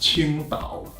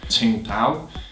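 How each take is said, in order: First: The name is said with a Mandarin Chinese pronunciation. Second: The name is said with an English-style pronunciation. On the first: "Actually, in Chinese, it's pronounced Qingdao" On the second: "It's called Tsingtao"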